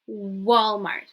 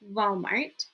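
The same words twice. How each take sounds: First: The word begins with a W sound. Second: The word begins with a V sound. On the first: The speaker calls it right. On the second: The speaker calls it wrong.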